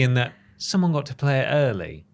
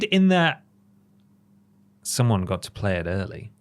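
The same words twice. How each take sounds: First: The tone sounds cheerful and warm. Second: The tone sounds troubled and uneasy. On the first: The news is lovely. "But it's lovely ... You notice the tone change in my voice?" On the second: The news is strange. "It's weird"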